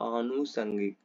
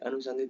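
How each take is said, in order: First: The first vowel is long. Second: The first vowel is short. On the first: The speaker calls it right. "नहीं आनुषंगिक" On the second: The speaker calls it wrong. "अनुषंगिक नहीं"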